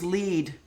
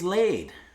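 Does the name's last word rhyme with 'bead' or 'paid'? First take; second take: bead; paid. First: The vowel is long 'ee', rhyming with bead. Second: The vowel is 'ay', rhyming with paid. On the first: The speaker calls it wrong. "I thought it was lead" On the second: The speaker calls it right. "ladies laid is how you pronounce it"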